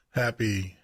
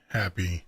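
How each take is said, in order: Both takes have the same delivery.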